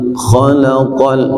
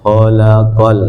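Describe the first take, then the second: First: The kh is rough and rasping in the throat. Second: The kh is light without throat rasping. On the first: The speaker calls it right. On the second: The speaker calls it wrong.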